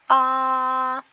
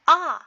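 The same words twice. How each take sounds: First: It is said with Mandarin first tone. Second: It is said with Mandarin fourth tone.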